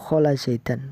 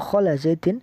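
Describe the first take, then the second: First: The last word ends with the sound 'an'. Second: The last word ends with the sound 'in'. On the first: Khola works as a verb here. "setelah khola uh, dibaca nasab" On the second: Khola works as a preposition here. "kholanya dianggap sebagai huruf jar"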